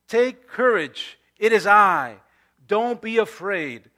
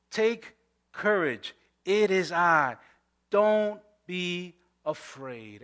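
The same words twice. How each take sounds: First: 'Take courage' slow and a little louder, each word weighted; a preacher voicing Jesus with slow emphasis; proclaimed scripture. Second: Gentle reassurance. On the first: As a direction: declare it slowly like a promise. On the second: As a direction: ease it out tenderly. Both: Shown as a demonstration. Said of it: "But Jesus immediately said to them".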